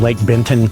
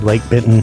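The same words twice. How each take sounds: First: The name is said fully and carefully. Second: The name is said in a relaxed Southern way. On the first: "instead of saying Lake Benton" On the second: "I might say Lake Benton ... It's just the Southerner in me"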